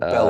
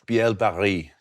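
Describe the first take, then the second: First: The first part sounds like 'bell'. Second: The first part sounds like 'bee-el'. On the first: The speaker calls it wrong. "not Bell" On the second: The speaker calls it right. "it's Biel Barry"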